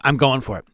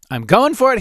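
First: Said in the usual way. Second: Pumped, pitch jumping higher; psyched up. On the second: Retold or imitated. At the gas pump, psyching himself up, excited. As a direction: hype yourself up to go for it. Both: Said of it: "and I thought".

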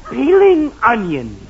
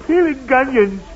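First: PEELING ONIONS slow and louder, cleanly parted; careful correction. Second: PEELING ONIONS run together with a hard g, like "peeling gonions"; run-together slip. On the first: Husband corrects his slip to boy, slowly separating "peeling onions". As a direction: say "peeling", then "onions" with no hard g between. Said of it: "Look, I mean". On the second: Husband explains to boy, fumbling "peeling onions" into "peeling gonions". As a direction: let a g leak from "peeling" into "onions". Slip corrected after "I mean. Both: Acted.

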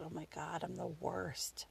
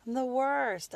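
First: Very soft, self-reproaching murmur; guilty hushed aside. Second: Higher, full-voiced self-reproach; self-blaming exclamation. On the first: Retold or imitated. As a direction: think it aloud, barely audible. Guilty thought, stopped in her tracks. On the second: Repeats the guilty thought out loud.

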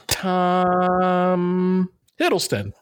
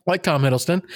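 First: TOM stretched out very long and high before "Hiddleston"; mock hesitant guess. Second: Said in the usual way. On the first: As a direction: hold "Tom" as if searching, then drop "Hiddleston". Retold hesitant answer, wrong Tom.

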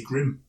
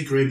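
First: "Grim" as an American's Graham; "Grim", the name squashed to rhyme with "him"; American mispronunciation. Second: Said in the usual way. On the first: Shown as a demonstration. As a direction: say "Grim" for Graham, in one short syllable. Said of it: "they say Grim". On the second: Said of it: "Americans can't say Graham".

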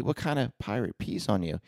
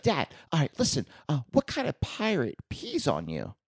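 First: Said in the usual way. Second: Imitating a young son's high voice; higher, eager little-boy joke setup; high-pitched kid. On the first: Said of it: "I'm like". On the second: Son setting up a joke for dad, high-pitched. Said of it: "still has that high-pitched voice".

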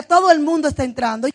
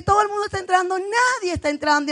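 First: Loud, assured retold claim; firm, booming assertion at a steady pace; confident claim. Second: Quick, high retort throwing the words back; retold incredulous comeback, rushed and raised; exasperated retort. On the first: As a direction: quote him declaring it with conviction. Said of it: "Teo me decía". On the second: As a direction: contradict him fast and high-pitched. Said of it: "Y yo le decía que".

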